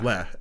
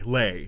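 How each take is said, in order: First: The vowel is a short, plain 'eh' sound. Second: The vowel is a gliding 'ay' sound. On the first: The speaker calls it right. "le, L E H" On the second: The speaker calls it wrong. "you're saying lay like L A Y"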